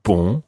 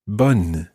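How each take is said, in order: First: Bon with a nasal vowel, no N. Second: Bonne with an open o and a sounded N; bonne, N pronounced; bonne with clear N. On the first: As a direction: say Bon through the nose. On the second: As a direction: say bonne, not nasal. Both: Shown as a demonstration. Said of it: "Listen to the difference between these two words".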